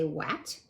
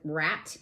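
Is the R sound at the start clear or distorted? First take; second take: distorted; clear. First: The word begins with a distorted R sound. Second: The word begins with a clear R sound. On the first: The speaker calls it wrong. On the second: The speaker calls it right.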